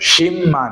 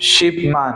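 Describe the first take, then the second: First: The first word ends in an m sound. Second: The first word ends in a b sound. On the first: The speaker calls it right. "শিব মান না হয়ে কি হবে, শিম মান" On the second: The speaker calls it wrong. "হওয়ার কথা ছিল শিব, শিব মান"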